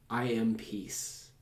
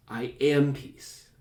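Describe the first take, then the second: First: Slow and soft, landing on a long "peace"; stress on PEACE. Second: "am" stretched and leaned on, slowly; stress on AM. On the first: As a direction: let "peace" carry the weight, gently drawn out. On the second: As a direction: put the weight on "am". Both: Shown as a demonstration. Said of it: "change the emphasis of it".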